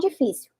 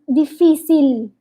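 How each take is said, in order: First: The word is said in a plain, normal way. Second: The word is said exaggerated, tongue held high. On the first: "eu vou falar normal" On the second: "a minha língua vai lá em cima"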